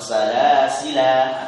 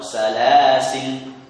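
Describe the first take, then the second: First: The word ends with a final vowel. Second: The word ends with a final consonant. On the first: "menetapkan alif" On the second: "membuang alif sehingga berubah menjadi lam sukun salasil"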